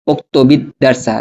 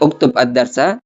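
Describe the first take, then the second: First: The first word ends with a linking 'i' vowel. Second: The first word ends without a linking vowel. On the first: "dibaca kasroh seperti itu" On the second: "Kalaupun kita tidak mau membaca, misalnya uktub ad-darsa, ini boleh-boleh saja"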